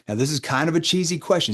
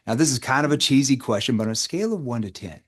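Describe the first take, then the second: First: Light, playful teasing tone. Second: Voice shifted down. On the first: Coach to sales team, playful framing of a cheesy question. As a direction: tease the question before asking it. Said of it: "See, I'm playful". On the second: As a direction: settle the voice down to disarm them. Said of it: "notice how my voice shifted down". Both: Shown as a demonstration.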